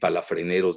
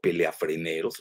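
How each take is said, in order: First: The word begins with the sounds 'pala'. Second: The word begins with the sounds 'pelea'. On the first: The speaker calls it right. "en lugar de decir palafreneros" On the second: The speaker calls it wrong. "dijo peleafreneros"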